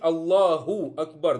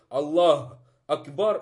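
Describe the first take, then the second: First: A short u is sounded after Allah. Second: No vowel is sounded after Allah. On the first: The speaker calls it right. "Нужно говорить Аллаху Акбар" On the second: The speaker calls it wrong. "это ошибка. Опять же, бамма не произнесла"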